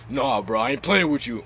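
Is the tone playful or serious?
serious. It is said in a serious tone. The speaker really means it.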